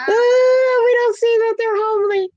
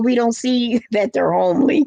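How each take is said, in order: First: "homely" squealed much higher through laughter; cracking up. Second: "homely" said through a chuckle, rising at the end; a little laugh slips in before "homely"; chuckling. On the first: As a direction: repeat the punchline, breaking into a high laugh. Repeats the joke, cracking up. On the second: Joking about homely men. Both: Real, not acted.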